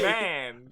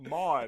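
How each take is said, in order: First: The vowel sounds like the one in 'man'. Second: The vowel sounds like the one in 'mon'. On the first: The speaker calls it right. "Man, not Mon" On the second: The speaker calls it wrong. "It's not Mon"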